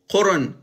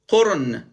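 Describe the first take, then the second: First: The second vowel is short. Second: The second vowel is short.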